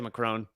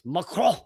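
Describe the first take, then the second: First: The name is said with an English pronunciation. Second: The name is said with a French pronunciation. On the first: "but I'm going to say Macron" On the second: "the French way"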